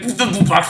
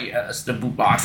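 First: Higher, taunting imitation; mocking. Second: Low, soft, imitated menace; creepy. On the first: Hook taunting a doomed pirate, mocking. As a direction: make fun of the frightened victim. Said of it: "making fun of him". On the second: Hook confirming the pirate's punishment, creepy and low. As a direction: drop down into creepy relish. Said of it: "with this, like, really creepy".

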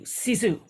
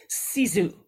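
First: "sisu." repeated slowly as SEE-zoo, falling; Finnish sisu again. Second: "sisu", the Finnish word, carefully said as SEE-zoo. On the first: Host to author, repeating the word after spelling it, careful pronunciation. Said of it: "S I S U". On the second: Host to author, introducing a Finnish word, careful pronunciation. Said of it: "known as". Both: Shown as a demonstration.

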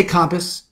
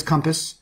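First: Compass with the first syllable like "calm"; Bronx compass. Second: Compass with the first syllable like "come"; wife's compass. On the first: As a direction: say compass the Bronx way, COM-pass rhymed with "mom". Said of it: "I say compass". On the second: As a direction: say compass the standard way, CUM-pass. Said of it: "My wife says compass". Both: Shown as a demonstration.

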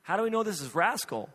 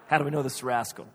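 First: Imitating a wife's higher-pitched questioning; mock wifely doubt, pitched up. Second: Quick repeat of a doubted question, pitched down; husband brushing off the doubt, fast and low; incredulous repeat. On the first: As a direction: raise the pitch as you question it. Wife questions the cat's identity. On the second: Retold or imitated. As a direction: throw the question back quickly. Husband repeats her question back.

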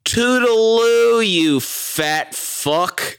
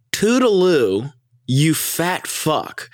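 First: Sweet goodbye turned into a jab; sassy mock farewell. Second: Higher, slow singsong "Toodaloo", drawn-out "you fat fuck"; sassy mock farewell, again. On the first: Erica telling off the man, sing-song mock sweetness. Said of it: "one of the most epic lines ever". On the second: Friend repeating Erica's epic line, slow sing-song. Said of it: "let me just repeat that".

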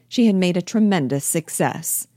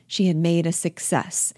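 First: "tremendous" lifted and stressed. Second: Said in the usual way. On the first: Acted. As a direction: repeat it with emphasis on "tremendous". Emphatic repeat with added word.

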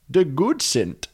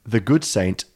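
First: Put-on silly Dutch accent, pitched up; comic higher-voiced Dutch rendering; mock Dutch. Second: Said in the usual way. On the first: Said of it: "or in Dutch".

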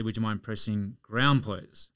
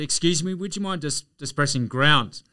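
First: A slow, polite, gentle request; very calm and nice. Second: Higher, louder and insistent; a bit louder. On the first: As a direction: ask nicely and patiently, no push. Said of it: "So I said very calmly, very nicely". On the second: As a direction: raise your voice so the stranger hears. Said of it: "so I said it a bit louder". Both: Retold or imitated.

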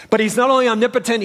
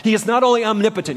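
First: "only" punched higher and louder; stronger stress on only. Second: "only" leaned on, fast and a bit louder; stress on only. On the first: Preacher driving home "only" to his listeners. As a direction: hammer the word "only" as the point builds. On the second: Preacher stressing "only" for the congregation. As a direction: press the word "only" at a quick clip. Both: Shown as a demonstration.

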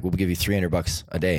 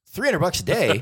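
First: Said in the usual way. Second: Much higher, disbelieving echo of the price; stunned at the money; amazed echo. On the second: Retold or imitated. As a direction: repeat the sum in astonishment. Danny amazed at offer.

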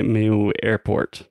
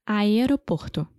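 First: English accent Portuguese. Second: Aeroporto said the Brazilian way, a-e-ro-POR-to; Portuguese pronunciation. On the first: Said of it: "porque é me-, meu airport". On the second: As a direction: Aeroporto with open Portuguese vowels, rolled r. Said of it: "como é que fala em português". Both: Shown as a demonstration.

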